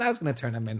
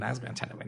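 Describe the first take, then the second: First: Said in the usual way. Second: "was" stressed, quieter and falling. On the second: Shown as a demonstration. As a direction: lean on "was", drop the volume.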